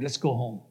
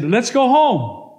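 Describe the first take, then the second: First: Low, soft, weary suggestion; tired request. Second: Slow, loud, raised-pitch order; insistent demand. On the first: Tired man to his girlfriend, low weary request. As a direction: ask quietly, worn out. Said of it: "I'm tired". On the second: Man refused by his girlfriend, slow loud demand. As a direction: press each word, higher and louder. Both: Acted.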